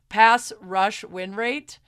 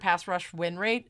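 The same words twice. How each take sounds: First: The phrase is said at an ordinary, unhurried pace. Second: The phrase is said quickly, rushing the words.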